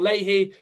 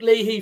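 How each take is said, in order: First: The name is said the Irish way. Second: The name is said the English way.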